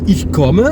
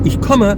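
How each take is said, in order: First: Ich komme with the O drawn out too long; mock French learner saying ich komme; French-style German. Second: Ich komme with a short, open O; proper German komme; correct German. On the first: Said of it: "les Français vont dire". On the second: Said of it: "alors que c'est". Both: Shown as a demonstration.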